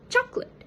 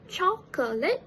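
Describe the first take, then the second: First: The word is said with two syllables. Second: The word is said with three syllables. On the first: "The middle schwa sound was omitted" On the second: "The standard pronunciation is chocolate"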